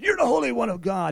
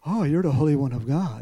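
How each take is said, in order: First: It sounds afraid and convinced. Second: It sounds calm and unafraid.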